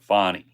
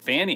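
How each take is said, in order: First: The first vowel sounds like the 'aw' in law. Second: The first vowel sounds like the 'a' in cat. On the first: The speaker calls it right. "it's got to be Fawny" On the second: The speaker calls it wrong. "I pronounced it Fanny"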